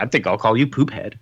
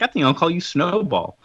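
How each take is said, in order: First: Mock echo, lower than the lady's line; lightly voiced retort. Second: Retold lady's line, pitched a little higher; lightly voiced lady. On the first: Mocking the lady's pet name, lightly voiced retort. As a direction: lightly parody the naming in a lowered voice. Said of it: "I'm like". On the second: Lady almost adopting a kitten, lightly voiced role. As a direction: lightly imitate a lady naming her new kitten. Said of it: "this one lady almost takes him".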